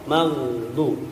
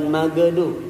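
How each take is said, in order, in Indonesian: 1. Bunyi gh langsung menyambung ke d tanpa vokal. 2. Ada vokal pendek tambahan yang mengikuti g. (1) "mandek sambil agak sedikit rakhwah" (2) "bukan magedu"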